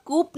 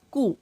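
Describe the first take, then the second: First: कूप with the final P pronounced; mock wrong कूप ending on a clear P; wrong way, P sounded. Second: कू said with no final P; silent P. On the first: Teacher warns students against sounding the P. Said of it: "कूप नहीं". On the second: Teacher shows students the right way, silent P. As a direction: correct कू, ending open on the vowel. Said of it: "कूप नहीं प- बोलेंगे". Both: Shown as a demonstration.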